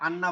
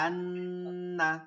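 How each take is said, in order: First: The n sound is short without nasal holding. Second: The n sound is held long through the nose. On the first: The speaker calls it wrong. "এটা আর আন্না বলা যাবে না" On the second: The speaker calls it right. "আন্না নাকের মধ্যে নিয়ে ধরে বলতে হবে"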